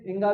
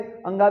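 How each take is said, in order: First: इंगा as an i-start nasal syllable; inga pronunciation. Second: अंगा said with an open a and a nasal ng; अंगा as an a-start nasal syllable; anga pronunciation. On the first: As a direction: say इंगा beginning on a short i, then nasal ng, then ga. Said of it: "इंगा भी सही है". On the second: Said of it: "अंगा भी सही है". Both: Shown as a demonstration.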